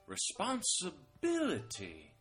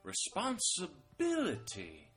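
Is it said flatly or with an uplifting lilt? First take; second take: uplifting lilt; uplifting lilt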